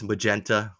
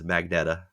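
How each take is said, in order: First: The n comes after the e: ma-gen-ta. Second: The n comes right after the g: mag-ne-ta. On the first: The speaker calls it right. "First there was magenta" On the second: The speaker calls it wrong. "which I said as magneta forever"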